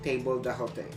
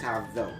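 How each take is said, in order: First: It is read letter by letter as written. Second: It is said as the short form tabzo. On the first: The speaker calls it wrong. "In literal English, you will read that as table d'hote" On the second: The speaker calls it right. "but you pronounce the word as tabzo"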